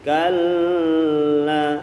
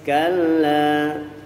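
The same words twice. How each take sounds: First: The doubled l is held too long. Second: The doubled l is held only briefly. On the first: The speaker calls it wrong. "Jangan kalla, walaupun enak lagunya tetap salah" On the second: The speaker calls it right. "cukup segitu aja di dalam mentasydidkan lam"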